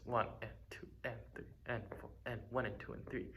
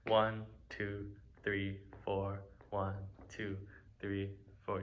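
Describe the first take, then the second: First: "One and two and three and four" counted quietly, every "and" squeezed in evenly between the beats; subdivided count. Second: Even count, one per beat; steady counted beat. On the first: Teacher demonstrating subdivision to students, soft even counting. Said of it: "Subdivision is doing something like this". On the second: Teacher counting a plain beat to students. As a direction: count a steady pulse evenly. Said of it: "let's say I have a beat". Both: Shown as a demonstration.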